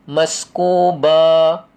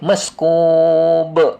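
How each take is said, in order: First: The word ends with a drawn-out final vowel. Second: The word ends on the consonant without a vowel. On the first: The speaker calls it wrong. "Ada orang baca maskuba" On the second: The speaker calls it right. "Kan tak ada alif"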